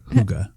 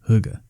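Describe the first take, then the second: First: The uh vowel sound is strong and full. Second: The uh vowel sound is weak and reduced. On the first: The speaker calls it wrong. "Not hygge" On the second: The speaker calls it right. "I think it is a less pronounced uh"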